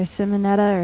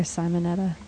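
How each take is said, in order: First: "Simonetta" with a short i, as in "sim"; first pronunciation option. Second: "Simonetta" with a long i, as in "sigh"; second pronunciation option. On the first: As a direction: say "Simonetta" starting SIM, not SIGH. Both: Shown as a demonstration. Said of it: "How would you pronounce that?".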